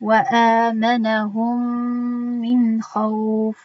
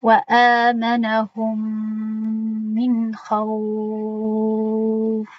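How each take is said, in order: First: «хавф» held two counts; two-count lengthening. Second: «хавф» held six long counts; six-count lengthening. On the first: Quran teacher demonstrating the two-count madd on «хавф». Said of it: "Ду ҳаракат ин гуна мебошад". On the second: Quran teacher demonstrating the six-count madd on «хавф». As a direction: stretch «хавф» as long as you can. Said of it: "Шаш ҳаракат". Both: Shown as a demonstration.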